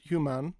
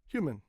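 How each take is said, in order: First: The second syllable has a full vowel, like man. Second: The second syllable has a weak, reduced vowel. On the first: The speaker calls it wrong. "Not human" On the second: The speaker calls it right. "It's human"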